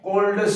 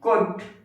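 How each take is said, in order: First: The word is said with an L sound. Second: The word is said without an L sound. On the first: The speaker calls it wrong. "वुड आपको नहीं पढ़ना है" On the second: The speaker calls it right. "एल यहां पर silent होता है"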